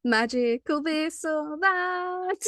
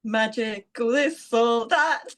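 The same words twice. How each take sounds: First: Slow, drawn-out game show host. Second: Giggling through the jingle line; sing-song it while laughing. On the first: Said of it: "I put on my game show voice". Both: Acted.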